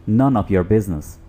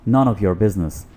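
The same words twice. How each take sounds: No difference in how they are said.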